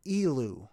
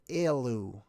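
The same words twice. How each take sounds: First: Elu slowly, starting with a long "ee": "EE-loo"; pronunciation variant. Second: Elu slowly, starting with "ay": "AY-loo"; pronunciation variant. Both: Shown as a demonstration. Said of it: "technically would be pronounced".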